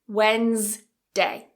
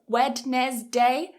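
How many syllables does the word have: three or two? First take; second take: two; three. First: It has two syllables with the D silent. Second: It has three syllables with the D pronounced. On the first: The speaker calls it right. "it's actually two syllables" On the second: The speaker calls it wrong. "mispronounce this with three syllables"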